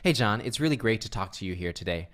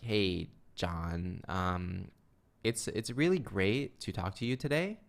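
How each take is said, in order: First: It is said smoothly, in a confident tone. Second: It is said hesitantly, in a timid tone. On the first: The speaker can be trusted. The speaker calls it right. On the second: The speaker seems timid or possibly shady. The speaker calls it wrong.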